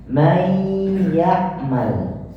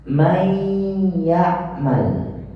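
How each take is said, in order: First: The merged sound is half nasal, half oral. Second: The same.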